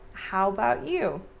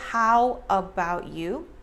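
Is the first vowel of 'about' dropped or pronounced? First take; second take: dropped; pronounced. First: The first vowel of 'about' is dropped. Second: The first vowel of 'about' is pronounced. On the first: "We kind of drop the A in about" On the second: "Instead of"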